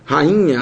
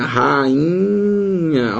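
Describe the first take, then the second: First: Said in the usual way. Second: RAINHA drawn out with a long, higher I; separação do hiato. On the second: Shown as a demonstration. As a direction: stretch rainha into ra-i-nha, holding the I. (rainha alongado, destacando o I) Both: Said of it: "o I se separa do A".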